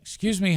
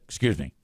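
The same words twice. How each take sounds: First: It is said in a light, airy, friendly tone. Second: It is said in a short, sharp, irritated tone. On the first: The speaker is politely asking to pass. The speaker calls it right. "with that type of light, airy tone" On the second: The speaker is annoyed with the person in the way. The speaker calls it wrong. "like that"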